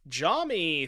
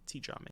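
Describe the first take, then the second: First: The name starts without a T sound. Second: The name starts with a T sound. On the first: The speaker calls it wrong. "I think the T is silent" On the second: The speaker calls it right. "I'll call you T-Jami"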